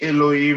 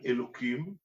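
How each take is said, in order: First: The middle consonant is an h sound. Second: The middle consonant is a k sound. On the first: The word refers to angels or rulers. The speaker calls it right. "כשמדברים על מלאכים, או על שרים, אז אומרים אלוהים" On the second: The word refers to God himself. The speaker calls it wrong. "פה לא אומרים אלוקים"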